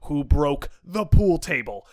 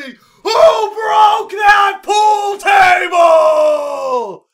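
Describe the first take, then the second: First: Slow, measured imitation of pressing interrogator; a little louder. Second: Drawn-out, high, full-force mock interrogator scream. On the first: Head of security asking a student once more, slightly firmer. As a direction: press the question slowly, still controlled. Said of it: "gets a little louder". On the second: Head of security exploding at a silent student, screaming. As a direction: bellow it, stretching every word. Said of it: "just screams at me".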